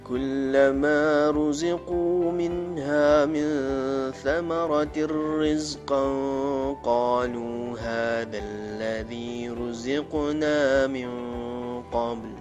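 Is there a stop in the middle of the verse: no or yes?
no. It runs on without stopping after rizqa. The speaker calls it right. "Ustaz tak ada berhenti dekat rizqa"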